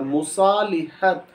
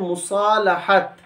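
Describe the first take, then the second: First: The syllable after 'sa' is said 'li'. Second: The syllable after 'sa' is said 'la'. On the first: The speaker calls it wrong. "लाम के नीचे ज़ेर" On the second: The speaker calls it right. "इसका सही तलफ़ुज़ है मुसालहत"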